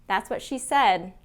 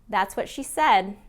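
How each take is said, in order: No difference in how they are said.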